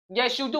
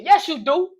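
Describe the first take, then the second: First: Said in the usual way. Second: Higher, louder accusing retort. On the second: Acted. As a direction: call out her lie. Arguing with girlfriend.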